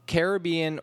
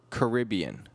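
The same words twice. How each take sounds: First: Caribbean as care-uh-BEE-un; Caribbean, stressed care-uh-BEE-un; stress on third syllable. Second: Caribbean as kuh-RIB-ee-un; Caribbean, stressed kuh-RIB-ee-un; stress on second syllable. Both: Shown as a demonstration. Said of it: "two widely accepted pronunciations".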